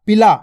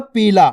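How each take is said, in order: First: पिला with a quick, short i. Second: पीला with a held, long ee. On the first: Teacher showing the small vowel sign, पिला said quickly with short i. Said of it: "छोटी ई की मात्रा का उच्चारण". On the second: Teacher recalling the intended word, पीला with ee held long. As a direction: stretch the first vowel of पीला. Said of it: "मैंने क्या बोला था?". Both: Shown as a demonstration.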